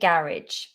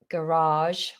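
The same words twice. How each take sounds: First: The second vowel is short. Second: The second vowel is drawn out long. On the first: "I say garage" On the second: "in America they say garage. They pull out that second uh, vowel"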